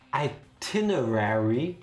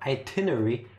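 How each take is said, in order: First: Every written syllable is pronounced in full. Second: It is said with a syllable reduced. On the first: It follows the spelling. "which is how you spell the fucking word" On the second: It is what most people say. "which is what normal people say instead"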